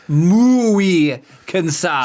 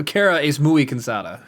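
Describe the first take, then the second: First: "Muy cansada" dragged out very slowly, as if exhausted; acting tired. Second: Said in the usual way. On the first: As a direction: stretch out "Muy cansada" like you're worn out.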